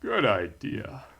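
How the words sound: It is said in a special put-on voice. The speaker calls it right.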